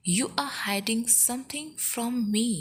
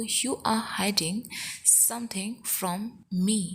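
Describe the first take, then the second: First: Said in the usual way. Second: Chunked, with a pause midway; measured teaching delivery. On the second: Shown as a demonstration. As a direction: break the sentence up for learners. Teacher repeats sentence in slow chunks.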